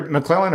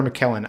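First: McClellan with an L straight after the C; alternative pronunciation. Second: McKellen with no L after the K; likely correct pronunciation. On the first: Co-host weighing how to say the actor's name, alternative pronunciation. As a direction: say "McClellan" as muh-CLELL-an. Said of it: "Did I pronounce his name right?". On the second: Co-host correcting the actor's name, likely correct pronunciation. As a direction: say "McKellen" as muh-KELL-en. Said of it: "I think it might actually be McKellen". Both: Shown as a demonstration.

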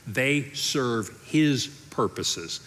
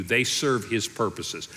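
First: "his" leaned on, slow and drawn out; stress on his. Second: "serve" leaned on, a bit slow; stress on serve. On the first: Preacher stressing "his" to the congregation, slow. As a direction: press the word "his" slowly. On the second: Preacher repeating the line with stress on "serve". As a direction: hit the word "serve" harder. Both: Shown as a demonstration.

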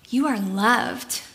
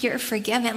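First: Tender emphasis. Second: Said in the usual way. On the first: Shown as a demonstration. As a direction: let "You are loved" land gently and slowly, like a reassurance. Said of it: "Like, he's saying". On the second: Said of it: "he's not just saying".

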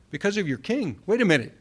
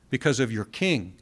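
First: Higher-pitched, mock realization; acted surprise, pitched up; puzzled double take. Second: Said in the usual way. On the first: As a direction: repeat it as if it has just sunk in. Acts out a double take at verse.

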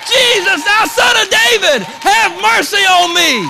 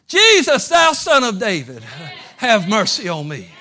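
First: Desperate cry. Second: High, loud cry for mercy; desperate cry. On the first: Blind beggar crying out to Jesus, shouted. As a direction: cry out over the crowd. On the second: Blind beggar crying out to Jesus, loud and desperate. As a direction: call out over the crowd, desperate. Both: Acted.

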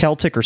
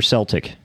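First: CELTIC said with a K sound; hard-C Celtic. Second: CELTIC said with an S sound; soft-C Celtic. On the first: Asking friends how the can's name is pronounced, Celtic with a hard K. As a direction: start Celtic like "kel". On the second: Asking friends how the can's name is pronounced, Celtic with an S. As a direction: start Celtic like "sel". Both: Shown as a demonstration. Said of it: "Is it pronounced Celtic or Celtic?".

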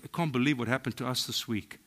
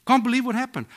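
First: Said in the usual way. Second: Much higher and louder, amazed; excited marvel. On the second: Shown as a demonstration. Believer tells friends about a miracle, excited and amazed. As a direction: burst out with wonder.

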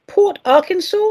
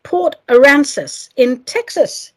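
First: "Port Arkansas" said like the state, Ar-kansas with an r; misread place name. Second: "Port Aransas" said carefully and slowly, a-RAN-sas with no k; slowly and carefully say "Port Aransas", no Ar-kansas; corrected place name. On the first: Host reading a postcard's origin, misreading it as the state. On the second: Host correcting her misreading of the postcard's town, careful and slow. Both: Real, not acted. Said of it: "Oh, no, no, sorry, sorry".

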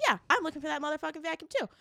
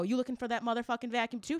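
First: High, rapid echo of the question; imitated fellow shopper. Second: Quick, rising question to a fellow shopper; retold question. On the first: Other lady answers a fellow shopper, imitated fired-up reply. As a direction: rattle it off higher, as the other lady. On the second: Shopper asks another lady about the vacuum, retold question. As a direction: ask it fast, lifting at the end.

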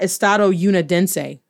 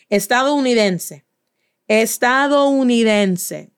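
First: Estado Unidense with an English YOU sound; anglicized Estado Unidense, split in two; wrong pronunciation. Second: Stretched-out, syllable-by-syllable Estadounidense; drawn-out teacher's demonstration of Estadounidense; slow model pronunciation. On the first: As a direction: say Unidense as "you-nih-DEN-say". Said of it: "It's not Estado Unidense". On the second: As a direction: say Estadounidense slowly, savouring every vowel. Teacher models word slowly for students. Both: Shown as a demonstration.

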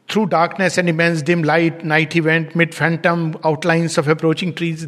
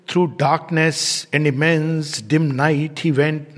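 First: Said in the usual way. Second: Slow, rhythmic reading with the stress on each word; read poetically. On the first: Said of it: "This is not poetry". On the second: Shown as a demonstration. Teacher reading Sri Aurobindo's line poetically, slow with measured stress. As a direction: let the meter carry "Through darkness and immense dim night he went". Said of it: "if we read like poetically".

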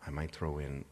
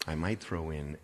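No difference in how they are said.

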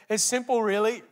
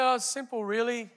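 First: Put-on light Korean accent. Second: Said in the usual way. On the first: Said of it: "In his Korean accent". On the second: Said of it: "He said".

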